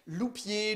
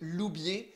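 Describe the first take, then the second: First: The middle consonant is a p sound. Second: The middle consonant is a b sound. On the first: The speaker calls it wrong. "on a mal prononcé" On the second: The speaker calls it right. "mon nom de famille"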